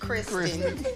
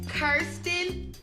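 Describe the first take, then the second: First: The name begins with a 'Kris' sound. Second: The name begins with a 'Ker' sound. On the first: The speaker calls it wrong. "not Kristen" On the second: The speaker calls it right. "please say her name right. It's Kirsten"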